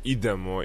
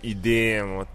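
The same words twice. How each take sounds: First: The word is said short, without stretched vowels. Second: The word is drawn out, with stretched vowels. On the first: This is how everyone says it. "kad svi kažu idemo" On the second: It sounds rustic and regional. "to nekako kad se razduži, ... nekako je seljački"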